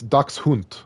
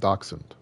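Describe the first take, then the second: First: It is pronounced the German way. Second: It is pronounced the English way. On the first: "in the German it's Dachshund" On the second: "it's pronounced Dachshund here in English"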